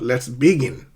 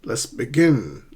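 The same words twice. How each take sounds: First: The stress is on the first syllable of begin. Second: The stress is on the second syllable of begin. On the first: The speaker calls it wrong. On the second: The speaker calls it right. "usually we stress the second syllable"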